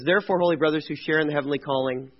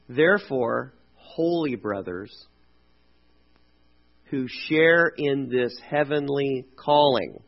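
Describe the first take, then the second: First: It is read really fast. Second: It is read slowly.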